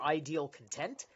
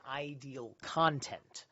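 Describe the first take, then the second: First: "content" stressed on the second syllable, con-TENT, with a questioning rise. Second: "content" stressed on the first syllable, CON-tent. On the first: Streamer testing another reading for chat, "content" stressed on the end. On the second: Streamer reading text aloud to chat, "content" with first-syllable stress. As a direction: say "content" as the noun, stress up front. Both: Shown as a demonstration. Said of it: "It's either content or content".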